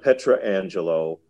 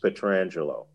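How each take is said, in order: First: The name begins with a separate 'Petra' sound. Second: The name begins with a run-together 'Petr' sound. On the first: The speaker calls it wrong. "It's not Petra Angelo or any other kind of bastardization" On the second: The speaker calls it right. "he will tell you it's Alex Petrangelo"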